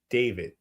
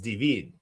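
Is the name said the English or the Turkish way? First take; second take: English; Turkish. First: The name is said the plain English way. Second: The name is said the Turkish way.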